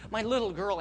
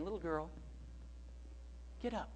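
First: Said in the usual way. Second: Put-on soft, tender call to a child; much softer, with loving calm; quiet and gentle. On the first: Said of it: "When he came to Christ". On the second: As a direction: gently coax her in a hushed voice. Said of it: "he said it gently".

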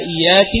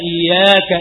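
First: "إياك" ending in -ki, rising a little; feminine iyyaki. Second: "إياك" ending in -ka, open a on the kaf; masculine iyyaka. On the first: Teacher lists the feminine pronoun for students, ending in -ki. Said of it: "بالكاف مكسورة للمخاطبة". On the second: Teacher lists the masculine pronoun for students, ending in -ka. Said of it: "بالكاف مفتوحة للمخاطب". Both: Shown as a demonstration.

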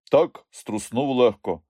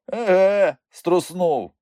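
First: Slow, offhand admission; casual downplaying. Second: High, loud echo of his word; amused scoffing. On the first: Ivan excusing himself to uncle, casually downplaying. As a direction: play it down, drawing the words out. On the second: Uncle laughing at Ivan's excuse, amused scoffing. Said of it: "Вуйко Микульця засміявся". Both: A narrator's reading.

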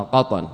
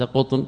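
First: "قطن" as qatan, short a on both consonants; correct vowelling. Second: "قطن" misread as qutn, u then no vowel; wrong vowelling. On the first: Teacher showing students the name's vowels, "قطن" said qatan. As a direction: say "قطن" with fatha on qaf and ta. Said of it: "فتح القاف والطاء". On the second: Teacher showing students the misreading to avoid, "قطن" said qutn. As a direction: say "قطن" like the word for cotton, qutn. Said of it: "ليس قطن". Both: Shown as a demonstration.

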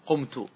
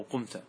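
First: "قمت" ending in -tu; first-person ending. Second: "قمت" ending in -ta; second-person ending. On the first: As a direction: say "قمت" as qumtu, with a final u. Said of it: "مثال مرفوع". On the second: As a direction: say "قمت" as qumta, with a final a. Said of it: "أو". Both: Shown as a demonstration.

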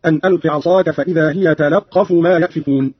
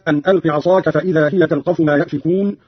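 First: تلقف with "la" and a doubled q; open lam, doubled qaf. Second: Said in the usual way. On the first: Shown as a demonstration. Teacher shows Qalun's reading, تلقف said "talaqqafu". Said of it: "بفتح اللام وتشديد القاف هكذا". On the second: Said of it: "قرأ قالون بفتح اللام وتشديد القاف".

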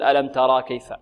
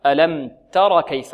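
First: ترى with a long final aa; wrong long vowel. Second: تر with a short, clipped-off final a; short final vowel. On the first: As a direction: stretch the alif at the end of ترى. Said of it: "لا نقول". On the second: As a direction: say تر with no long alif. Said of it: "حذفت منها الألف". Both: Shown as a demonstration.

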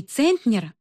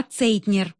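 First: "Центнер" with an n before the t; "Центнер" as the name being rejected; wrong surname. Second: "Цейтнер" with a y-glide in place of n; "Цейтнер" offered as the right name; corrected surname. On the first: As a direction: say "Центнер", the mistaken name, stressed on the first syllable. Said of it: "а Цейтнер". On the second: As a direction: say "Цейтнер", with "цей" as the stressed first syllable. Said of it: "Не Центнер". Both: A narrator's reading.

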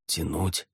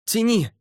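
First: Softer, hesitant question; doubting echo. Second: Very high urgent yell; shouted order. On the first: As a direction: repeat it quietly to yourself, unsure. He doubts her order. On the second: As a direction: scream the command up the rope. Woman below orders him to pull. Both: A narrator's reading.

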